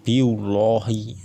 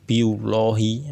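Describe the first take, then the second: The two takes are said the same way.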